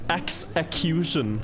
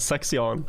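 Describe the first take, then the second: First: The name is said long, like 'execution'. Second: The name is said short, like 'sexion'. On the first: The speaker calls it right. "his name is Execution. That's what he wanted it to be" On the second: The speaker calls it wrong. "For so long I said Sexion"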